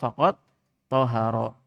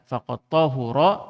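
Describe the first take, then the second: First: The vowel after the h is a. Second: The vowel after the h is u. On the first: "bi fathit ta'i wal ha" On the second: "dengan dhammah ha"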